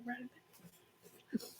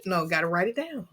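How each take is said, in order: First: Softly whispered Write it down. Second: Said in the usual way. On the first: Shown as a demonstration. Host showing his guest his hushed reminder, whispered. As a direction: breathe the words as a hushed reminder. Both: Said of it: "Just say".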